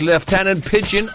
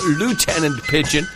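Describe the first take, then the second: First: Lieutenant is pronounced in a British way. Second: Lieutenant is pronounced in an American way.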